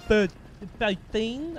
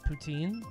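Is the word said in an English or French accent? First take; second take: French; English. First: It is said in a put-on French accent. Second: It is said in a plain English accent.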